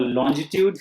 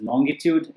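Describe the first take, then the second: First: Said in the usual way. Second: Longitude said with a hard g, "long-gitude"; alternative pronunciation. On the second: Shown as a demonstration. Reviewer showing how some people pronounce the title, Longitude with hard g. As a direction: say Longitude as "LONG-gih-tude". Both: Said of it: "Some people will pronounce it as".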